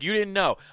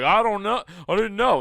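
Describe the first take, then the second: First: Flat, sarcastic "You didn't know"; sarcastic echo. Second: Higher, louder whiny "I didn't know"; mock whiny excuse. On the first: Retold or imitated. Him mocking the careless person's excuse, sarcastic. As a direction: throw it back at them. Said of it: "And you're like". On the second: Careless people excusing themselves, mock whiny. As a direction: play dumb in a whine. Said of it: "All these other pieces of shit, like".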